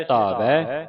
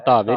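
First: ਧਾਵੈ ending in open "ai"; double-lanv ending. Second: ਧਾਵੇ ending in closed e; wrong ending. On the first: Teacher reading the verse for students, ਧਾਵੈ with open ai ending. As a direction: end ਧਾਵੈ on ai, not e. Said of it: "ਧਾਵੇ ਨਹੀਂ ਪੜਨਾ". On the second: Teacher showing the misreading, ਧਾਵੇ with e ending. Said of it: "ਨਹੀਂ ਪੜਨਾ". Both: Shown as a demonstration.

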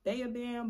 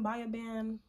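First: "Baya" said like BAY-uh; "Baya" with an ay vowel first; alternative pronunciation. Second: "Baya" said like BUY-uh; "Baya Band" opening with an eye sound; tentative pronunciation. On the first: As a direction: try "Baya Band" as BAY-uh band. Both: Shown as a demonstration. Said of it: "not even sure if that's the correct pronunciation".

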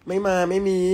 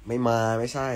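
First: Louder, higher retake. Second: Said in the usual way. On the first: Real, not acted. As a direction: repeat it higher and louder, excited. Re-reading a viewer comment. (พูดซ้ำเสียงสูงและดังขึ้น)

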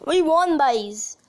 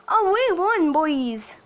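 First: Put-on Irish "boys", said like "byes"; Irish accent. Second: Said in the usual way. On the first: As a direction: cheer it with a touch of Irish accent. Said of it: "Just like the Irish say it".

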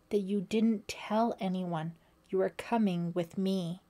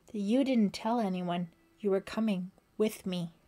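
First: Slightly more deliberate delivery; slow repeat. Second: Said in the usual way. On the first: A narrator's reading. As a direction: spell it out with measured weight. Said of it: "Sandy repeated slowly".

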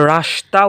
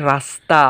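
First: রাস্তা mispronounced with a hushing sh before the t. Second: রাস্তা with dental s before the t, not sh. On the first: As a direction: say রাস্তা with sh, "rashta". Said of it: "উচ্চারণ হচ্ছে না". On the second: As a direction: say রাস্তা with a clear s, "rasta". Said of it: "হচ্ছে, হচ্ছে". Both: Shown as a demonstration.

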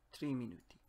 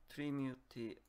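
No difference in how they are said.

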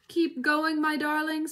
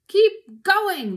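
First: Lightly acted, higher urging voice; panting. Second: Loud, high farmer's yell; shouting. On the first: Mister Fox urging his darlings on, lightly panted. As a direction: urge them on as if winded. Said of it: "panted Mister Fox". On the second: Boggis to Bunce and Bean, loud high shout. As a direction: yell it across to the others. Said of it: "the fat Boggis shouted". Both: A narrator's reading.

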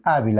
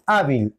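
First: "hábil" stressed as HA-bil; stress on first syllable. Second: "hábil" wrongly stressed as ha-BIL; stress on last syllable. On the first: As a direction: lean on the HA of "hábil". («hábil» con acento en la primera: HA-bil) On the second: («hábil» con acento en la última: ha-BIL) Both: Shown as a demonstration. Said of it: "¿Cuál es la tónica entre".

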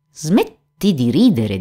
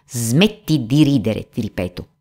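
First: Mildly offended, slow command; huffy. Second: Threatening. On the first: Geppetto to the laughing puppet, huffy. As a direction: tell them off slowly, a touch piqued. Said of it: "disse Geppetto impermalito". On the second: Geppetto repeats himself to the laughing puppet, mildly threatening. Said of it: "urlò con voce minacciosa". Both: A narrator's reading.

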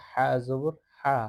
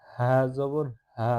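First: হা with a light h sound. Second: Slow হা with a slightly heavy h; heavier ha. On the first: Teacher contrasts two ha letters, light ha. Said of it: "ওইটা হালকা আও-, আওয়াজে". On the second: Teacher contrasts two ha letters, heavier ha. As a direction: give হা a fuller, weightier sound, drawn out. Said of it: "এটা একটু ভারী আওয়াজে বলতে হবে". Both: Shown as a demonstration.

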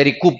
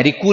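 First: "रिकूप" closed with an audible final P; P pronounced. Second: "रिकू" ending on oo with no P; P wrongly dropped. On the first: Teacher correcting how students say recoup, final P pronounced. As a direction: say "रिकूप" as ree-koop, sounding the P. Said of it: "रिकूप बोलते हैं". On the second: Teacher showing students the mistake in recoup, P dropped. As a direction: say "रिकू" as ree-koo, leaving off the P. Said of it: "रिकू नहीं बोलते". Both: Shown as a demonstration.

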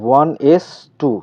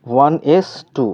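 First: ওয়ান এস টু, the raised two said as টু, never স্কয়ার; ওয়ান এস টু with টু said, not স্কয়ার; superscript as spoken number. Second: ওয়ান এস টু, read the raised two aloud as টু; ওয়ান এস টু with টু said, not স্কয়ার; superscript as spoken number. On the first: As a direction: read ওয়ান এস টু plainly, with টু for the superscript. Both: Shown as a demonstration. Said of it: "স্কয়ার বলা যাবে না কিন্তু ওয়ান এস টু".

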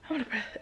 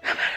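First: Softer, winded, breath running out; breathless and soft. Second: Breathless, gasping the words out; out of breath. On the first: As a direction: sigh it out, still panting. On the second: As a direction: say it between pants, winded. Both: Real, not acted.

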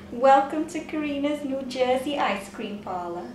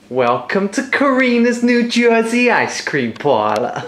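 First: Put-on half-hearted New Jersey accent through laughter. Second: Hammed-up New Jersey accent, higher; a shopkeeper badly faking a New Jersey accent. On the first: Wife trying the parlour greeting, weak New Jersey accent. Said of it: "That was good". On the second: Host greeting ice cream customers, mock New Jersey accent. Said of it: "can you do a New Jersey accent".

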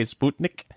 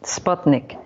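First: "Sputnik" said Russian-style, SPOOT-nik; Russian-accent pronunciation. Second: "Sputnik" said SPUT-nik, short u; corrected pronunciation. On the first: Cohost shows host the Russian accent version, SPOOT-nik. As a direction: put a Russian oo vowel in "Sputnik". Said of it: "when you do the Russian, uh, accent". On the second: Host corrects cohost's accent attempt, short-u SPUT-nik. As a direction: say "Sputnik" with SPUT rhyming with cut. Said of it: "No, it's Sput". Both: Shown as a demonstration.

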